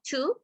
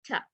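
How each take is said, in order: First: The vowel is full and clear. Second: The vowel is quick and reduced. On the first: The speaker calls it wrong. "Not to" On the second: The speaker calls it right. "it's with be quickly"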